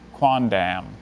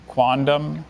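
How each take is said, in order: First: The last syllable's vowel is full and clear. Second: The last syllable's vowel is reduced and weak.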